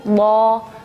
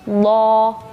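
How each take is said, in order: First: The consonant is heavy and emphatic, tongue side. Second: The consonant is heavy and emphatic, tongue side.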